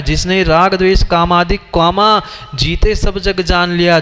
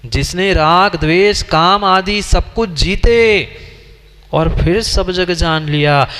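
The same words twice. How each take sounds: First: जिसने राग, then a break, then द्वेष, काम आदि, with a pause marked at comma; reading the commas as pauses. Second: जिसने राग द्वेष काम आदि सब कुछ जीते read slowly in one breath, a break, then और फिर सब जग जान लिया; slow correct reading. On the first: Preacher showing the wrongly punctuated line with its comma pauses. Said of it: "वहाँ कॉमा लगा है". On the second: Preacher showing the congregation the correct reading, slowly. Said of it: "वहां comma नहीं है". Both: Shown as a demonstration.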